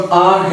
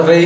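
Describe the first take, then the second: First: Said in the usual way. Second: رے said as "ray", the Urdu letter name; letter R mispronounced. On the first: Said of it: "جو آر ہے اس کو رے کے طور پہ". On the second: Shown as a demonstration. Teacher showing students a pronunciation slip, R mispronounced as رے. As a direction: say the letter R as رے, starting on the r sound. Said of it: "اس کو رے کے طور پہ بول رہے ہیں".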